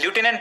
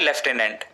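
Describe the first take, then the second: First: It is said with an American English pronunciation. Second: It is said with a British English pronunciation. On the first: "American English में इसे as ल्यूटिनेंट pronounce किया जाता है" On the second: "British English में लेफ्टिनेंट"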